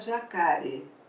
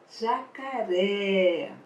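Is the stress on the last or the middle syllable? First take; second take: middle; last. First: The stress falls on the middle syllable. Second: The stress falls on the last syllable. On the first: The speaker calls it wrong. "senão fica jacare. Mas não é a palavra jacaré" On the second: The speaker calls it right. "Tem que ter esse acento agudo"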